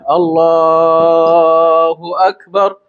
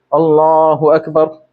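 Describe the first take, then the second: First: The word Allah is drawn out long. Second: The word Allah is short and flat. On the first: It fills the movement between postures with remembrance. "Panjangnya di mana, Bu? Pas lafal Allahnya ya" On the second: It gives an impression of hurrying. "datar-datar aja semuanya. Pendek-pendeknya semuanya"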